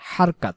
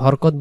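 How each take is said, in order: First: The vowels are open 'a' sounds. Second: The vowels are short 'o' sounds. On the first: The speaker calls it right. "সঠিক উচ্চারণ হারকাত" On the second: The speaker calls it wrong. "যদি হরকত বলে তাহলে হা জবর হ হয়"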